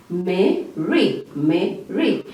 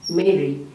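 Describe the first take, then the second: First: "Mary" broken in two, Me, ree; split into syllables. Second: Said in the usual way. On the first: Shown as a demonstration. Teacher counting vowel sounds, "Mary" sounded out as Me, ree. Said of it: "So I can hear A". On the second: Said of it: "how many vowel sounds can you hear".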